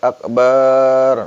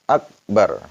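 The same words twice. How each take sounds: First: The vowel after the b is drawn out. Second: The vowel after the b is short. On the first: The speaker calls it wrong. "Nggak boleh akbar" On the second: The speaker calls it right. "tetap akbar"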